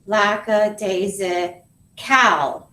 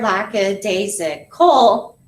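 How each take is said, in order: First: Very slow "lackadaisical", last syllable a full "cal" as in "pal"; "lackadaisical" ending on an open, unreduced A; thinking pronunciation. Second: Slow "lackadaisical" in beats, ending on "kul"; "lackadaisical" with schwa after "lack", syllables set apart; pronounced as heard. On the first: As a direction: draw out "lackadaisical" syllable by syllable for spelling. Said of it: "what are we gonna think?". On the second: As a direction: punch the natural last syllable of "lackadaisical". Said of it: "we hear lackadaisical". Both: Shown as a demonstration.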